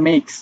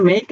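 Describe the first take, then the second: First: "মেকস" ending in a k-s cluster; "মেকস" with an audible final s; final S sounded. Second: Said in the usual way. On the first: Shown as a demonstration. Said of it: "এসটা উচ্চারণ করবা". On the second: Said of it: "আমরা একটা normal ক্ষেত্রে আমরা উচ্চারণ করি".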